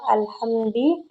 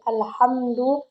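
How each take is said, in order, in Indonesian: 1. Kata itu diakhiri dengan vokal i pendek. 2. Kata itu diakhiri dengan vokal u pendek. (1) "Ia membaca alhamdi dengan kasroh" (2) "alhamdu di sini kita baca dengan dhammah"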